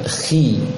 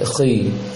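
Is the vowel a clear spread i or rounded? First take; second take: spread i; rounded. First: The vowel is a clear i with spread lips. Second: The vowel is rounded, with pursed lips. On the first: The speaker calls it right. "Dibacanya khi" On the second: The speaker calls it wrong. "jangan sampai khi"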